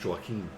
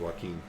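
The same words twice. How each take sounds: First: The name gets a German-style pronunciation. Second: The name gets its usual, familiar pronunciation.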